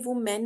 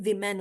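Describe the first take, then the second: First: The first syllable sounds like 'wo'. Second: The first syllable sounds like 'wi'. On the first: The speaker calls it wrong. "लेकिन ये वुमेन नहीं होता" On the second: The speaker calls it right. "ये विमेन होता है"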